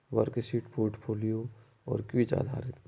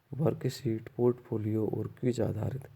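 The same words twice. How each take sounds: The two takes are said the same way.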